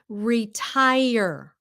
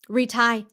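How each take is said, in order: First: The word ends with the full tire sound. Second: The word ends clipped, sounding like retie. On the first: It means to stop working. The speaker calls it right. "Về hưu là retire" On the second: It sounds like a word meaning to tie again. The speaker calls it wrong. "how do the Vietnamese normally say it?"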